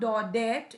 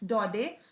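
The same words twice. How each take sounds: First: The final T sound is pronounced. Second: The final T sound is silent. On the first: The speaker calls it wrong. "It's not" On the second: The speaker calls it right. "keep the T silent in Daudet"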